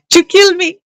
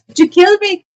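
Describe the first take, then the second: First: Laughing repeat. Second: Much higher, squeaky playful take; high squeaky mock question. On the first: Pretend. Seller repeats it to the chat, giggling. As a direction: still high, giggly second take. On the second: Seller squeaks at the chat in mock alarm.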